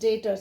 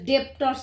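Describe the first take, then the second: First: The b sound is silent in the word. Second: The b sound is pronounced in the word. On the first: "be silent" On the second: "Some of the people they pronounce as debtors also"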